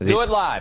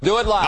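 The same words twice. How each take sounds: First: The phrase is said with low energy. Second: The phrase is said with high energy.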